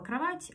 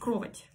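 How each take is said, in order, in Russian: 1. Ударение падает на обычный слог. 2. Ударение падает на необычный слог. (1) "вот есть слово «кровать»" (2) "не с правильным ударением"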